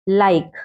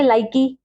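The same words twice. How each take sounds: First: लाइक as one syllable ending on k; correct pronunciation. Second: लाइकी with an added final ee; mispronunciation. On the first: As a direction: say लाइक with silent final e. (अंत का ई चुप रखकर लाइक) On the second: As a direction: sound the silent e in लाइकी. (अंत में ई जोड़कर लाइकी) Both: Shown as a demonstration. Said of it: "लाइकी तो नहीं पढ़ेंगे".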